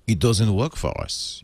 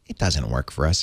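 First: The words are read in an exaggerated character voice. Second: The words are read in a plain, ordinary voice.

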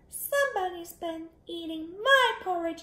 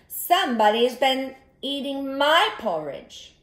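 First: It is said in a tiny, small voice. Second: It is said in a medium-sized voice. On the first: The smallest bear is speaking. "in his wee little voice" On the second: The middle-sized bear is speaking. "in her medium-sized voice"

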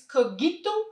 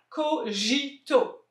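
First: The g is a hard g sound. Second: The g sounds like the j in girafe. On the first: Other people say it this way. "il y a des gens qui disent Cogito" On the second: The speaker's own reading of the name. "G-I, ça fait J, comme dans girafe"

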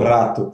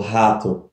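First: The R is said the Polish way. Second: The R is said the Brazilian Portuguese way. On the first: "eles leem como" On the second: "como a gente leria"

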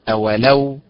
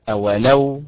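Both takes have the same delivery.

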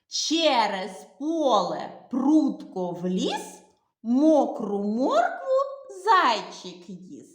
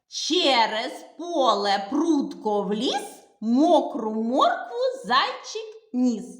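First: The rhyme is said slowly and clearly. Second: The rhyme is said quickly. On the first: "Всі слова вимовляємо чітко і виразно" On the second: "то й ми вимовимо швидкомовку швидше"

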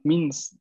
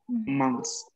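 First: The vowel is an oral i. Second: The vowel is nasal. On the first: This is how some regions pronounce it. "hay quien en algunas regiones de Francia la van a pronunciar con mins" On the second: This is the standard pronunciation. "la pronunciación va a ser mons, mons, ¿no? Que es una I nasal"

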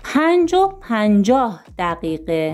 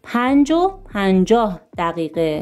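Both takes have the same delivery.

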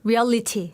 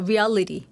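First: It is said in a British accent. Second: It is said in a rolled American accent. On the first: The speaker calls it right. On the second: The speaker calls it wrong.

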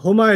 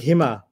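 First: The first vowel is an 'oo' sound. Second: The first vowel is an 'ee' sound. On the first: "the other cousin, Huma" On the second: "is in a good mood and he sounds like Hima"

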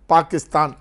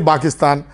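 First: It is said with a Kannada accent. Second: It is said with a Tamil accent. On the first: The speaker calls it right. "But Kannadigas, they will pronounce very rightly" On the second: The speaker calls it wrong. "we don't say Pakistan. We say Pakistan"

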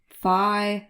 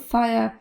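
First: The word's final sound is left out. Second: The word ends with its full final sound. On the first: "w piosence [name] śpiewa coś jakby fire, fire. To brzmi jakby nie wymawiał ostatniej głoski" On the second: "W brytyjskiej wersji angielskiego powiemy fire, bez r"

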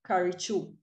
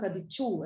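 First: The middle consonant is an R sound. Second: The middle consonant is a D sound. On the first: The speaker calls it right. "the correct pronunciation is, of course, karichu" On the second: The speaker calls it wrong. "pronouncing ra as da"

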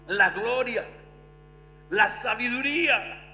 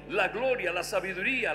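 First: It is read slowly and deliberately. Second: It is read at normal speed.

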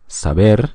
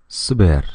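First: The vowels are fully pronounced. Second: The vowels are squeezed and barely heard. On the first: "если по-испански это прозвучит saber" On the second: "мы перескакиваем через гласные звуки"

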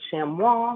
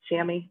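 First: The word is pronounced in a French way. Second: The word is pronounced in an English way.

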